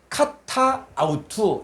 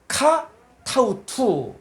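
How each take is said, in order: First: Both vowels are kept as separate words. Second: The first vowel is dropped and the words join. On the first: "여기는 카타, 아우투 이렇게 읽어도 되는데" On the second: "이 알파를 생략합니다. 그래서 읽을 때는 어떻게 하냐? ... 이렇게 읽습니다"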